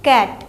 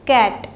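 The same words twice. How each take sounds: The two takes are said the same way.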